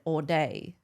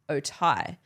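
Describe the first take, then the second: First: It is pronounced like 'all day'. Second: It is pronounced like 'oh-tie'. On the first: The speaker calls it wrong. "but I said all day" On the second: The speaker calls it right. "you would say the word of the drink as Otai"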